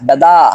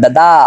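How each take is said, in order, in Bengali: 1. শেষের n টা শুধু নাকি স্বরযুক্ত স্বরধ্বনি। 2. শেষের n টা শুধু নাকি স্বরযুক্ত স্বরধ্বনি।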